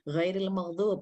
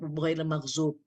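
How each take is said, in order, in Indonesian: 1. Konsonan kuncinya adalah bunyi mirip d yang tebal. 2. Konsonan kuncinya adalah bunyi z.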